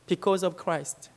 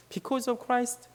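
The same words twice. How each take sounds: First: Very slow, each word laid down; slow, weighty quote. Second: Slow, weighty quote. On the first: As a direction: lay the words down slowly and gravely. Quoting elderly missionary, slow. (천천히 무게 있게 또박또박) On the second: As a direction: drag "Because of Christ" out gently. Repeating the quote. (천천히 조용히 되뇌듯) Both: Retold or imitated.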